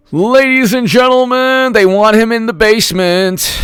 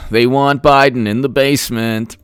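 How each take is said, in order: First: High, booming showman's announcement; hammed-up announcer voice, pitched well up; mock announcer. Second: Said in the usual way. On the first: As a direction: proclaim it like a ringmaster to a crowd.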